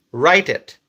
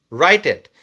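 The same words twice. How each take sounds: The two takes are said the same way.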